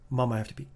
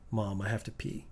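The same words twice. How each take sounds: First: It is said quickly. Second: It is said at a normal speed.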